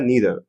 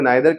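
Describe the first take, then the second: First: The first vowel sounds like 'ee'. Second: The first vowel sounds like 'eye'. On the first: "American accent में" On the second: "British accent में"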